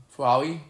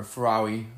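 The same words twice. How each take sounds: First: Ferrari again as fer-ah-li with a questioning rise; retry Ferrari, still slurring the r; unsure retake of Ferrari; second try at Ferrari. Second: Ferrari said with a blurred l for the r, falling low; trying again at Ferrari and missing; mangled Ferrari. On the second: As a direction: stumble over Ferrari as fer-ah-li. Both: Real, not acted. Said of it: "I can't even say it right".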